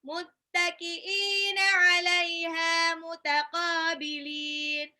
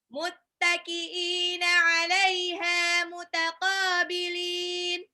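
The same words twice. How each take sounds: No difference in how they are said.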